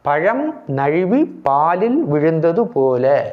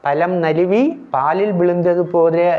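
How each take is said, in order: First: The middle consonants are zh-like sounds. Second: The middle consonants are plain l sounds. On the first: The speaker calls it right. "ழு என்றும் போடுவதே சரியானது" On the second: The speaker calls it wrong. "சொல்லக்கூடாது, அது தவறு"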